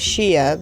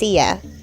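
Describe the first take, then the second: First: The word begins with a 'ch' sound. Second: The word begins with an 's' sound. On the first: This is how the speaker says it. "I say chia" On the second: This is how other people say it. "people say it's pronounced sia. Like the singer"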